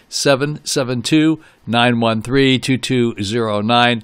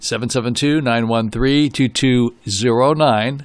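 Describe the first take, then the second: First: It is said slowly. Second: It is said at normal speed.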